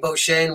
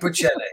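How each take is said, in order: First: The name is given a French pronunciation. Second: The name is pronounced phonetically, as spelled. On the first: "The government was saying Bochene, which is the French" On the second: "But I like Bochene"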